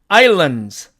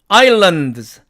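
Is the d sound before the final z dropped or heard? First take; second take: dropped; heard. First: The d is dropped, leaving only z. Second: The d before the final z is pronounced. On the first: "앞에 있는 이 드가 생략되어서 결국 즈만 남기 때문에" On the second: "사전식 발음으로는"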